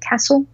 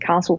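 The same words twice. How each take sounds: First: Castle is said the Melbourne way. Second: Castle is said the Sydney way.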